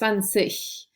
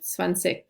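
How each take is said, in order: First: The ending has a soft, breathy G sound. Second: The ending has a hard K sound. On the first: This is how northern and standard speakers say it. "will have the softened G sound" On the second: This is how southern dialect speakers say it. "more like zwanzig with a K sound at the end"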